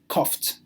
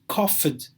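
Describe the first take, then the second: First: The ending is a short 't' sound. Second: The ending is an extra 'id' syllable. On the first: The speaker calls it right. "it is coughed" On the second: The speaker calls it wrong. "This is not coughed"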